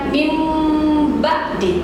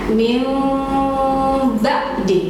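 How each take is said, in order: First: A clear n sound comes before the b. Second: A held nasal m sound comes before the b. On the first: The speaker calls it wrong. "jadi bukan min ba'di ya" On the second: The speaker calls it right. "contohnya mil digunakan ya"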